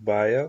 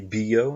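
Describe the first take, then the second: First: The word is pronounced the English way. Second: The word is pronounced the Dutch way. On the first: The speaker calls it right. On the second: The speaker calls it wrong.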